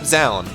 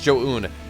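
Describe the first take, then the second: First: The name begins with a z sound. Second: The name begins with a j sound. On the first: The speaker calls it wrong. "it's not Zaun, as we thought" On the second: The speaker calls it right. "it's Jo-Un"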